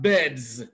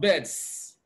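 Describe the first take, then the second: First: The word ends with a z sound. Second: The word ends with an s sound. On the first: The speaker calls it right. "When it comes after a voiced consonant, it is pronounced Z" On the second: The speaker calls it wrong. "not beds"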